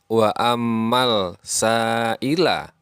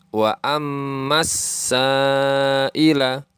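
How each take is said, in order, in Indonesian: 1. Bunyi L dibunyikan sebelum S. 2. Bunyi L tidak dibunyikan dan huruf S ditasydid. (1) "bukan wa ammal sa'ila" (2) "huruf alif lamnya seolah-olah tidak ada dan huruf sinnya ditasdid"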